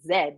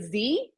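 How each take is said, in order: First: The letter is said as zed. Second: The letter is said as zee.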